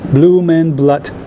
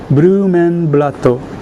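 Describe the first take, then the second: First: It is said with an English-style pronunciation. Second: It is said with a Japanese-style pronunciation. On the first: "I'm not sure pronounce it wrongly" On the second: "the Japanese pronunciation seems to be like this"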